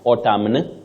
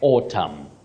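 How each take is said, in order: First: The final n sound is pronounced. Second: The final n sound is silent. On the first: The speaker calls it wrong. "Not autumn, because that N is silent" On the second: The speaker calls it right. "you say autumn"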